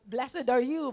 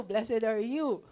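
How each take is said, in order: First: Proclaiming louder. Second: Drawn out slowly, proclaiming; slow, reverent declaration; slow solemn repeat. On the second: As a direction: stretch each word like a blessing. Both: Retold or imitated. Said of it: "he started actually".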